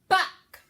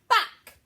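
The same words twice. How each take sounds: First: The word is shouted very loudly. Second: The same.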